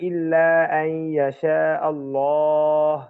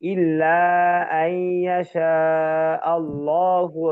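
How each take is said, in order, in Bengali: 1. Allah-তে থামে, শেষের স্বরধ্বনি ছাড়া। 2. Allahu-তে শেষ হয় আর থামা ছাড়াই চলতে থাকে। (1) "নিঃশ্বাস শেষ।" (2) "মানে আগে থেকে নিতে হবে।"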